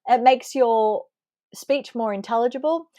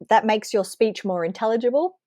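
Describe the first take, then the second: First: It is said slowly. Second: It is said fast.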